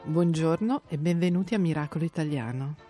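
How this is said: It is said in a sexy voice.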